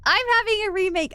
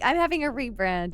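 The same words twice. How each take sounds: First: Laughing. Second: Said in the usual way. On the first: Real, not acted. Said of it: "I'm getting a remake".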